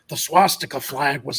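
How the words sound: It is read in a put-on grumpy character voice.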